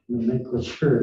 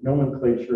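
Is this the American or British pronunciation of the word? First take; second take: British; American. First: The word has a British pronunciation. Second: The word has an American pronunciation. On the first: "nomenclature is British" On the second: "nomenclature is American"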